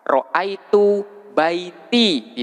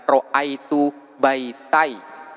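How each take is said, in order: First: The t is followed by an i vowel. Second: The t is followed by an a vowel. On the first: The speaker calls it right. "harus diberi harkat kasroh" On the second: The speaker calls it wrong. "Tidak boleh dibaca"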